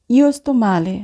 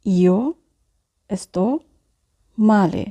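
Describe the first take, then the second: First: Said in the usual way. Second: "io", "sto", "male" each set apart by long pauses; slow dictation with pauses; word by word. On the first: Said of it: "teacher models phrase". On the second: Shown as a demonstration. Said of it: "teacher repeats word by word".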